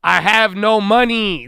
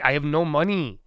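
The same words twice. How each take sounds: First: "have" hit high and loud, slow; emphatic repeat. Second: Said in the usual way. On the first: Real, not acted. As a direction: spell it out, leaning on "have". Repeats complaint, building exasperation.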